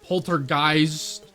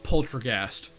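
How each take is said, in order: First: The last syllable sounds like 'geist'. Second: The last syllable sounds like 'ghast'. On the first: "Is it Geist?" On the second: "I thought it was like a ghast"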